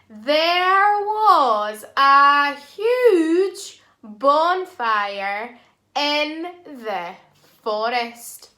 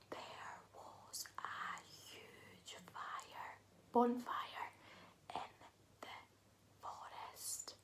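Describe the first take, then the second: First: The sentence is said in a loud voice. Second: The sentence is whispered.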